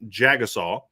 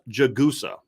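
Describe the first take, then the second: First: The name ends in a 'saw' sound. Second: The name ends in an 'sah' sound. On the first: The speaker calls it wrong. "I've been saying Jagasaw. That ain't it" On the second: The speaker calls it right. "it's Charles Jagusa"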